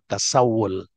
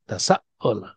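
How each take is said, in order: First: A w sound links the middle of the word. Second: A glottal stop breaks the middle of the word. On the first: This is the easier form that is used. "Terus diganti dengan wawu" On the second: This original form is heavy to say. "Bilang tasaul itu berat"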